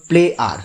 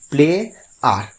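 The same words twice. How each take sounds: First: Said in the usual way. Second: play, clear pause, then আর; play and আর each said alone, with a gap between; split in two syllables. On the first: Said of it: "এইভাবে দুভাবে ভেঙে". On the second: Shown as a demonstration. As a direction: break play আর into two separate beats. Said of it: "এইভাবে দুভাবে ভেঙে আমাকে উচ্চারণ".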